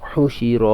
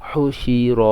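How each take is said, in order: Both takes have the same delivery.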